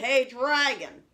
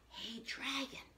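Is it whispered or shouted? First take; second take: shouted; whispered. First: It is shouted very loudly. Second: It is whispered very softly.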